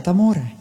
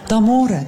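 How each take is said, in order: First: Said in the usual way. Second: D'amore said with a laugh. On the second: Shown as a demonstration. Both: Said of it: "spero che siate completamente".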